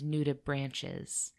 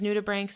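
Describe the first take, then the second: First: The ending is said like 'ches'. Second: The ending is said like 'ks'. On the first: The speaker calls it wrong. "I repeatedly referred to them as nudibranches" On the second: The speaker calls it right. "the most commonly accepted way of pronouncing it"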